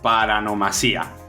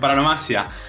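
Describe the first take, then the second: First: The stress falls on the syllable 'si'. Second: The stress falls on the syllable 'ma'. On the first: The speaker calls it wrong. "a ver si lo digo bien" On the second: The speaker calls it right. "creo que es sin acento"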